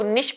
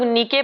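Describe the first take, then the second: First: The word ends with an sh sound. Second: The word ends with a k sound. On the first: The speaker calls it right. "वैसे निश ही इसका correct pronunciation है" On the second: The speaker calls it wrong. "कुछ लोग नीके पढ़ते हैं"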